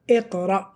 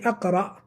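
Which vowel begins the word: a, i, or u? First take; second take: i; a. First: The word begins with an i vowel. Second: The word begins with an a vowel. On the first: The speaker calls it right. "So we said Iqra" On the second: The speaker calls it wrong. "We didn't say Aqra"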